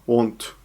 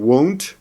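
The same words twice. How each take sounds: First: It is pronounced the way Japanese teachers say it. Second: It is pronounced the way native speakers say it. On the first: The speaker calls it wrong. "becomes won't" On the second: The speaker calls it right. "won't becomes"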